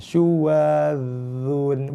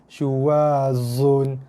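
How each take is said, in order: First: The consonant is a heavy emphatic sound. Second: The consonant is a plain z sound. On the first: The speaker calls it right. "yang betul adalah dho" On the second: The speaker calls it wrong. "Bukan syuwazun"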